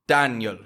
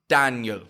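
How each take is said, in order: No difference in how they are said.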